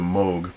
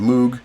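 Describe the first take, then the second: First: The name is said the European way. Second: The name is said the common way. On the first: This is how the family chose to say the name. "they chose to use the Moog pronunciation, which is the one that they um, use in Germany and in Europe" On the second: This is how many people say the name. "Some people pronounce his name Moog. That is actually a normal pronunciation of the name"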